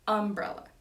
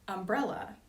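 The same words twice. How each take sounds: First: The emphasis follows the Georgia regional pattern. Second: The emphasis follows the non-Georgia pattern. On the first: "you say umbrella" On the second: "in Georgia, you don't say umbrella"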